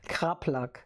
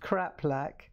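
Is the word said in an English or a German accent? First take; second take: German; English. First: The word is said in a German accent. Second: The word is said in a plain English accent.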